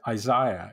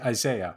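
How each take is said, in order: First: The name has a non-North American pronunciation. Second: The name has the North American pronunciation. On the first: "one should say Isaiah" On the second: "because I'm of a North American disposition, ... I say Isaiah"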